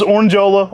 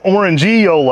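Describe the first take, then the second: First: No ee vowel follows orange. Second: A clear ee vowel follows orange. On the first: This is the northern way of saying it. "You go just Orangeola" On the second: This is the southern way of saying it. "I go with the southern. ... I get that E in there hard"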